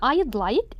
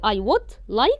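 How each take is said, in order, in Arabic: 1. كلمة 'would' تُختصر وتُلحق بكلمة 'I'. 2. كلمة 'would' تُنطق كاملة. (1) "أختصرها بأبوستروفي" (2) "بدل ما تقولي I would like"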